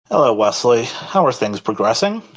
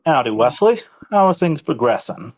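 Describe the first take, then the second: First: It is said without Julius's put-on accent. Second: It is said in Julius's put-on accent.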